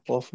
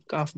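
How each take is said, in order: First: কফ with a rounded vowel; correct heavy কফ. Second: কাফ with an open aa vowel; wrong light কাফ. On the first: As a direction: model কফ in place of কাফ. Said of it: "কফ বলতে হবে". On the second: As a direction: show the mistaken কাফ sound. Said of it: "এটাকে কিন্তু কাফ বলা যাবে না". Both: Shown as a demonstration.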